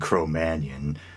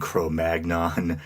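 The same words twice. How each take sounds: First: It is pronounced in the French way. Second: It is pronounced in an anglicized way. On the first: This is the accepted, proper way. The speaker calls it right. "Cro-Magnon being the proper French pronunciation" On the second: This is the older, customary way. The speaker calls it wrong. "maybe you were raised like myself to pronounce"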